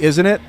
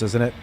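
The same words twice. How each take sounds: First: "isn't it?" pushed higher and louder with a mocking rise. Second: Said in the usual way. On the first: Mocking his own habit of saying "isn't it?". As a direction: catch yourself and echo "isn't it?" with a mocking lift. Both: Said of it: "There I was with the "isn't it?".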